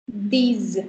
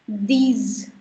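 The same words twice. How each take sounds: Both takes have the same delivery.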